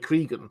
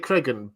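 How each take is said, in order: First: The first syllable sounds like 'cree'. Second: The first syllable sounds like 'creg'. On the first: This is how many other people say it. "a lot of people say Cregan" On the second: This is the speaker's own preferred pronunciation. "I say Cregan"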